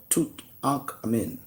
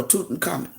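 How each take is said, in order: First: "Tutankhamun" split up as toot, ahnk, a-min; broken-up pronunciation. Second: "Tutankhamun" run together as toot-n-KAH-mun; run-together pronunciation. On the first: Offering another way to say the pharaoh's name, "Tutankhamun" in separate pieces. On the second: Offering one way to say the pharaoh's name, "Tutankhamun" run together. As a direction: say "Tutankhamun" smoothly, middle syllable squeezed to a plain n. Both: Shown as a demonstration. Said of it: "however you wanna say it".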